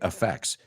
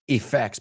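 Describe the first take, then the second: First: It begins with a reduced schwa vowel, like 'affect'. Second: It begins with a clear 'e' vowel. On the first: The speaker says it this way. "I say effects" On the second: Some other speakers say it this way. "some people who say"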